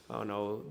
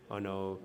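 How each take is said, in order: Both takes have the same delivery.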